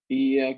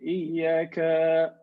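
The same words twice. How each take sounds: First: The vowels are held at their normal length. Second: A vowel in the word is held extra long. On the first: It addresses one being. The speaker calls it right. "When we recite Al-Fatiha, we say" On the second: It addresses more than one being. The speaker calls it wrong. "we have to be careful about the lengthening"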